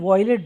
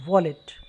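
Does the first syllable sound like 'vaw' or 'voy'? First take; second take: voy; vaw. First: The first syllable has an 'oy' sound. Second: The first syllable has a plain 'aw' sound. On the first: The speaker calls it wrong. "मैंने कई लोगों को सुना वो वॉयलेट बोलते हैं" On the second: The speaker calls it right. "इसको बोलेंगे वॉलेट"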